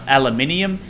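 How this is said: It is said with an Australian pronunciation. "here in Australia we call it al aluminium"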